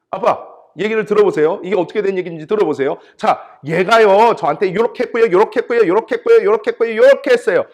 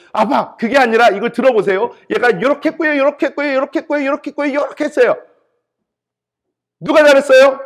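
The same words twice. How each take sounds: First: Put-on high, loud, insistent child's complaint; imitated tattling child. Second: Put-on even higher, loud protesting kid voice; imitated rival child. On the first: Child telling dad on a sibling, loud indignant tattling. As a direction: pile up grievances like an aggrieved kid. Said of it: "엄마 아빠한테 와서 이렇게 얘기합니다". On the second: Second child countering the sibling to dad, high indignant tattling. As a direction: counter the sibling in a shrieky, high singsong rush. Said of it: "그럼 다른 애가 와가지고요".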